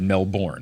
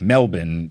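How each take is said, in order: First: The second syllable is fully sounded, as spelled. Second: The second syllable is cut down to a short 'bin'. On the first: "I was pronouncing it the way you spell it" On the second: "you should say it like Melbourne"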